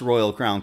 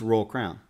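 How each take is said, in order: First: Royal is pronounced in a standard way. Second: Royal is pronounced in a Southern way. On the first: The speaker calls it wrong. "that is not how it's pronounced" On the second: The speaker calls it right. "It's Royal Crown"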